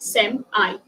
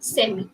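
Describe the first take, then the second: First: It is said with an American pronunciation. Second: It is said with a British pronunciation. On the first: "In America, they do pronounce it as semi" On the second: "That is actually the British pronunciation"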